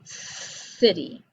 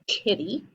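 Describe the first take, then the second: First: The word begins with a soft S sound. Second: The word begins with a hard K sound. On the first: The speaker calls it right. "I say city" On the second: The speaker calls it wrong. "I don't say kitty"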